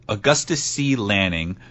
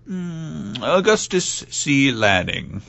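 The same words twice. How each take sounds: First: The name is said in a normal voice. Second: The name is said in a put-on voice.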